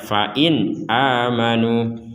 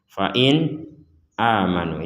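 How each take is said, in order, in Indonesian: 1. Kata-katanya menyambung tanpa jeda sama sekali. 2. Ada jeda antara 'fa in' dan 'amanu'. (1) "Jadi langsung saja" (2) "itu kan terlalu dipisah"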